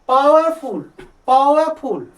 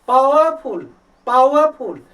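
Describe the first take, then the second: Both takes have the same delivery.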